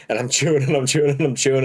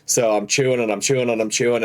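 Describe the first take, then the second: First: Faster, laughing through the repeated words. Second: Said in the usual way. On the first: Real, not acted. Retelling the gross sandwich to friends, breaking into laughter. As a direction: crack up while repeating it. Repeated chewing line in story.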